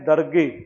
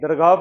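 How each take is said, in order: First: The word ends with a short 'ay' sound. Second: The word ends with a long 'aah' sound. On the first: The speaker calls it wrong. "जैसे हम इसका उच्चारण करते हैं दरगे" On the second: The speaker calls it right. "दरगाह कहते"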